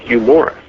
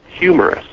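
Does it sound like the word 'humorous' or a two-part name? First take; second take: name; humorous. First: It is said as a first and last name. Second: It is said as the single word humorous. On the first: It sounds like an ordinary person's name. The speaker calls it wrong. "not Hugh Morris" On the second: It describes a man who laughs. The speaker calls it right. "It's humorous"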